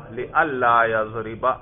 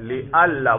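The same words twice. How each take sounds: First: لِأَلَّا يَضْرِبَ with a doubled lam; pronounced li-alla. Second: لِأَلَّا with the nun merged into a doubled lam; pronounced li-alla. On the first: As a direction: merge the nun into the lam in لِأَلَّا. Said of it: "تو کیسے پڑھیں گے؟". (ادغام کے ساتھ لِأَلَّا) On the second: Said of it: "اور کیسے پڑھیں گے؟". (لام مشدد کے ساتھ لِأَلَّا) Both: Shown as a demonstration.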